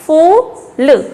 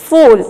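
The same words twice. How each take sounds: First: "फूल" split into a long "फू" and a short "ल"; sounding out. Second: "फूल" in one piece with a long, loud oo; blended whole word. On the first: Teacher spelling out a word for children, sounded out. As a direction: break "फूल" apart, stretching the oo. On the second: Teacher blending the word for children, stressed. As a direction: join "फूल" up, holding the oo. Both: Shown as a demonstration. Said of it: "इसको कैसे पढ़ेंगे".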